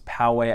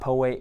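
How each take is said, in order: First: The name is said the way locals say it. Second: The name is said the way outsiders say it. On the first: The speaker is from the area. The speaker calls it right. "it's Poway. I guess that's one way to know if you're a local" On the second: The speaker is not from the area. The speaker calls it wrong. "I hear a lot of people call it Poway. It's not Poway"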